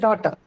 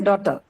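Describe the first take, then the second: First: The first vowel is said long. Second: The first vowel is said short. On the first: The speaker calls it right. "You say daughter. So it's long" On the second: The speaker calls it wrong. "you don't say daughter"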